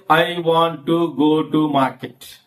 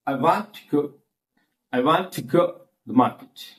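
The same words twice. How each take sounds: First: "I want to go to market" each word fully pronounced; every word stressed. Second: WANT, GO, MARKET audible, small words swallowed; only content words stressed. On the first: Teacher showing what not to say, evenly stressed words. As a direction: give "to" as much weight as "want" and "go". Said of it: "Don't say". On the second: Teacher showing natural sentence stress, three audible words. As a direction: lean on "want", "go", "market" and squash "to the". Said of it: "three words only are audible to us". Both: Shown as a demonstration.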